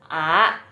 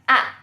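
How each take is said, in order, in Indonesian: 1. Diucapkan dengan nada kedua. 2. Diucapkan dengan nada keempat yang disentak. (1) "Yang kedua bacanya A" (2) "Yang keempat bacanya A. Karena disentak begini"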